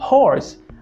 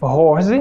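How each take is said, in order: First: It starts with a harsh sound, no vibration. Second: It starts with a vibrating, voiced sound. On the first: The speaker calls it right. "você deve falar" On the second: The speaker calls it wrong. "Ao invés de"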